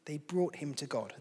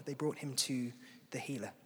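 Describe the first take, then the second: First: Said in the usual way. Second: Hushed whisper, no voice at all; a soft whisper to draw them in. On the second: Shown as a demonstration. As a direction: breathe "They brought him to the healer" as a secret. Repeats line, second time whispered.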